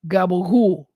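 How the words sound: The word is clipped in an Italian-American dialect way.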